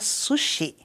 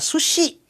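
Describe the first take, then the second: First: The syllables are even, with no stress. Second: The stress falls on the last syllable. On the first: The speaker calls it right. "O correto seria sushi" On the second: The speaker calls it wrong. "Brasileiro tem a mania de acentuar a última sílaba"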